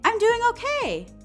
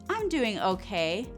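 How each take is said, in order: First: It sounds cheerful and upbeat. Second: It sounds lukewarm and subdued. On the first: The speaker calls it wrong. "I didn't say, I'm doing okay. That would kind of be confusing" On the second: The speaker calls it right. "my tone changed slightly"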